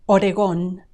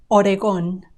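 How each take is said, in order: The two takes are said the same way.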